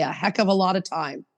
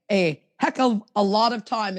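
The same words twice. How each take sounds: First: Said in the usual way. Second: Quoting Justin. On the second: Retold or imitated. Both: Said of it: "as Justin would say".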